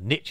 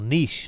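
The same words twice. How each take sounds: First: It is said with an American pronunciation. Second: It is said with a British pronunciation. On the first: "niche in America, they call it" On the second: "as they say in England or in the United Kingdom and Australia"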